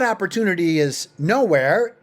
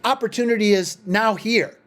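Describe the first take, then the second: First: The last part runs together as one word. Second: The last part splits into two separate words. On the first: Opportunity does not exist anywhere. The speaker calls it wrong. "it's not opportunity is nowhere" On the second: Opportunity is present right now. The speaker calls it right. "It's opportunity is now here"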